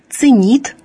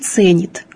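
First: The stress is on the last syllable. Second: The stress is on the first syllable. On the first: This was the usage in the early nineteenth century. "ударение было неподвижное. И правильным было «ценит»" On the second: This is the usage today. "а не «ценит», как сегодня"

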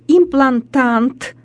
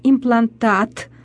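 First: An extra 'n' sound comes before the final 't'. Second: No extra 'n' sound comes before the final 't'. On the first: The speaker calls it wrong. "такие неправильные огласовки слов" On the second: The speaker calls it right. "правильно говорить"

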